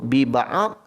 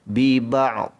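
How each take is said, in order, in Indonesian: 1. Vokal disebut setelah ain. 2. Ia berakhir dengan ain mati lalu dhad mati. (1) "Kalau kita sebut bi-ba'ad, salah. Kerana ain itu dah meletakkan pada baris atas" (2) "matikan ain dahulu baru dhad"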